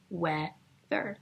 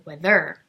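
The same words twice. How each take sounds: First: WEA-ther, first syllable stressed, second dropping away. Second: Wea-THER, wrongly punched on the last syllable; stress on second syllable. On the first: Teacher showing the class how we say it, first syllable stressed. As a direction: slowly split "weather", leaning on WEA. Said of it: "We stress the beginning". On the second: Teacher showing the class how not to say it, last syllable stressed. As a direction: throw the weight of "weather" onto a loud THER. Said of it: "We don't say weather". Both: Shown as a demonstration.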